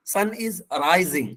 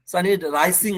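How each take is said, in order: First: "rising" said "rai-zing"; slow model reading, "rising" with Z. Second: "rising" said "rai-sing"; slowly, "rising" with a voiceless S; wrong hard S. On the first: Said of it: "हम यहाँ पर जा से लाएंगे". ("rising" में ज़ा की आवाज़) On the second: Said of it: "sun is rising नहीं". ("rising" में एस की आवाज़) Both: Shown as a demonstration.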